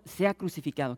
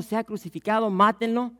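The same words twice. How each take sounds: First: Said in the usual way. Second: Higher, louder mock crowd cry; mob shouting. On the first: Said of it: "ahora están gritando". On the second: Preacher acts out the crowd demanding death, louder and higher. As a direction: call it out like a jumping mob. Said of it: "brincando y gritando".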